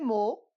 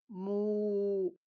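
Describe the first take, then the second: First: The vowel is short. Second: The vowel is drawn out long.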